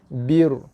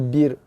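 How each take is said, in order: First: The r is heavy and full, back in the mouth. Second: The r is light and thin, front in the mouth. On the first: The speaker calls it wrong. "Tebal bunyi dia bir" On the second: The speaker calls it right. "Sedangkan sini roh nipis"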